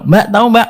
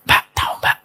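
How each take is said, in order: First: It is said in a normal speaking voice. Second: It is said low, almost without voice.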